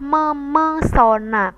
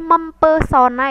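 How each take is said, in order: First: The p sound is dropped after mem. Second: The p sound is kept after mem. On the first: The speaker calls it right. "yang benar adalah memesona karena P itu luruh" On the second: The speaker calls it wrong. "bukan menjadi mempesona ya"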